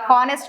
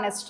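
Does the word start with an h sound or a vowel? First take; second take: h sound; vowel. First: The word begins with an h sound. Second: The word begins directly with a vowel. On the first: The speaker calls it wrong. "హానెస్ట్ కాదు" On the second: The speaker calls it right.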